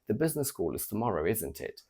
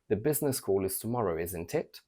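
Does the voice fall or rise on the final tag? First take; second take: fall; rise. First: The pitch falls on the final tag. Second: The pitch rises on the final tag. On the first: The speaker already knows and is just double checking. "If I use a falling intonation" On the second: The speaker genuinely does not know the answer. "with a rising intonation"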